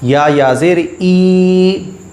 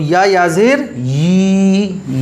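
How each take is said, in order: First: The final syllable is a bare ee vowel. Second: The final syllable starts with a y sound. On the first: The speaker calls it wrong. "अक्सर लोग इसको पढ़ते हैं" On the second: The speaker calls it right. "ये पढ़ना है हमें"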